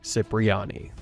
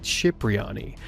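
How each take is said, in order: First: The name is pronounced an anglicized way. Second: The name is pronounced the Italian way. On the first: "how it is usually said in the game" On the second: "the correct Italian pronunciation would be Cipriani"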